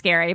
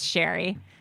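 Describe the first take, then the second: First: The name begins with an sk sound. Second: The name begins with an sh sound. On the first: The speaker calls it wrong. "Everyone says Adam's Scary" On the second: The speaker calls it right. "but it's Sherry"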